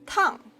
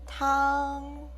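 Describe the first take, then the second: First: The syllable is said with a falling tone. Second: The syllable is said with the first tone. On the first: "This is the fourth tone. Tongue is a falling tone" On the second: "This is the first tone"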